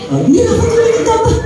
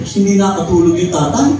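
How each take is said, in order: First: Ah! pitched much higher, in mock surprise; mock surprised exclamation. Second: Said in the usual way. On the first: A narrator's reading. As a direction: exclaim it like a shocked storyteller. Exclaiming the father's sleepless night.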